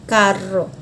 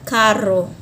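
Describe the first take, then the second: Both takes have the same delivery.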